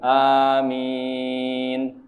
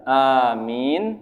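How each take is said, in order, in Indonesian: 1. Vokal panjang ditahan empat ketukan. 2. Vokal panjang ditahan dua ketukan. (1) "boleh empat" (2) "boleh dua"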